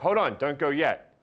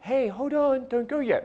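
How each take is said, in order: First: The voice is deeper and stronger. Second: The voice is lighter and weaker.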